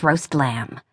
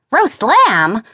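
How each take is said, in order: First: Said in the usual way. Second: Higher, rising disbelief; can-you-believe-it emphasis; incredulous echo. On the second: A narrator's reading. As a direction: repeat it as an astonished question. Incredulous repeat of the dish.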